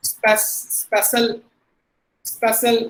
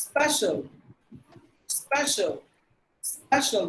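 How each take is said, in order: First: Special said as SPESS-ul; hard-stressed special with s for sh; common mispronunciation. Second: Special said as SPESH-ul; correct pronunciation. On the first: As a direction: use an s sound mid-word in special. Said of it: "இப்படி தான் நம்ம வச்சிருக்கோம்". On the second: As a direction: special ending like the word shall. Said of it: "That's how we have to pronounce". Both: Shown as a demonstration.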